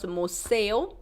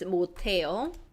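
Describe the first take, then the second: First: An s sound carries into the second syllable. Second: A t sound begins the second syllable. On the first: The speaker calls it wrong. "it's not pronounced 못세요" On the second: The speaker calls it right. "we will use the representative last consonant sound"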